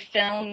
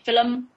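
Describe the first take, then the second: First: It is said in a standard American accent. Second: It is said in an Irish accent. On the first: "you don't say film" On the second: "in Irish, for example, you say film"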